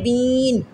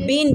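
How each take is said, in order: First: The vowel is long and stretched out. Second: The vowel is short and not stretched. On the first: The speaker calls it wrong. "ना के बीन, ऐसे नहीं पढ़ना" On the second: The speaker calls it right. "बा दो ज़ेर बिन रे"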